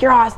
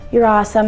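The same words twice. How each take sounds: First: It is said in a loud, in-your-face way. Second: It is said in a sweet, gentle way. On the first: The fan is being a little rude and intrusive. "a little rude and be like" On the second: The fan is being considerate and polite. "some people are so sweet"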